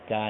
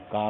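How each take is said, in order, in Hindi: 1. इस अक्षर में ग्लाइड वाला, फैला हुआ स्वर है। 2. इस अक्षर में शुद्ध, खुला स्वर है। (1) "क्या नहीं पढ़ेंगे" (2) "का पढ़ेंगे"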